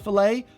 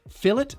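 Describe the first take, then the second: First: It is said the original way. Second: It is said the British way. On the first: "instead of" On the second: "how British people pronounce it"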